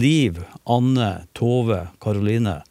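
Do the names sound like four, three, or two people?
four. Each name is its own separate phrase. Four people were met.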